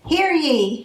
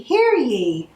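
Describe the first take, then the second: First: High, ringing hear ye of a herald; herald's cry. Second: Higher, ringing hear ye repeated; herald's cry. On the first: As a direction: call "Hear ye" out like a town crier. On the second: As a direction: call "hear ye" out again like a town crier. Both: Acted. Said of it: "the elves cried".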